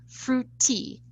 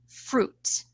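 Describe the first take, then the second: First: An extra vowel is added at the end. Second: It is said as a single syllable. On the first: The speaker calls it wrong. "It's not fruity" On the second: The speaker calls it right. "It's only one syllable"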